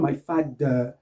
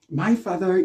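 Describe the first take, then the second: First: The th sounds like a hard d. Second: The th is a soft buzzing sound. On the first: The speaker calls it wrong. "on ne dit pas my father, c'est pas de" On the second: The speaker calls it right. "But say father"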